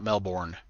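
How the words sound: It is said with an American pronunciation. The speaker calls it wrong. "That's the United States way of saying it"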